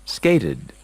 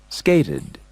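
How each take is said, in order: The two takes are said the same way.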